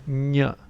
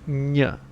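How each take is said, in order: First: The N sound is strongly overpronounced. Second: The N sound is strongly overpronounced.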